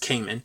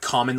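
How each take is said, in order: First: The name is said as Cayman. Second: The name is said like the word common. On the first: The speaker calls it right. "but it's Cayman" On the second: The speaker calls it wrong. "I think I pronounced it like common last episode"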